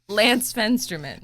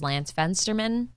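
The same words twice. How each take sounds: First: The name is said firmly, with confidence. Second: The name is said hesitantly, without confidence. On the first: The name is real. The speaker calls it right. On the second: The name seems made up. The speaker calls it wrong.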